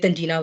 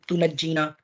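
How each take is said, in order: First: The word starts 'tan' with a single 'j'. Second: The word starts 'tu' with a doubled 'jj'. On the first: The speaker calls it wrong. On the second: The speaker calls it right.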